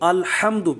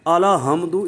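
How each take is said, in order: First: The first syllable is a short closed 'al'. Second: An extra vowel follows the l: 'aala'. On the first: The speaker calls it right. "इसको अल्हम्दु पढ़े" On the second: The speaker calls it wrong. "लाम पर ज़बर पढ़ना आला हमदु, ये भी गलत है"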